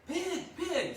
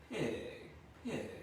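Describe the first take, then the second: First: Much higher, louder laughing call; loud laughing farm call. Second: Kind voice. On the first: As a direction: holler for the pig. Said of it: "well, actually in a kind voice". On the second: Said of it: "in a kind voice". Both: Shown as a demonstration.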